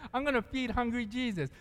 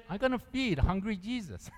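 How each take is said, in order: First: Imitating her words. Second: Quoting her. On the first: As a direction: repeat her line as she said it. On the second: Retold or imitated. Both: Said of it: "That's how she said it".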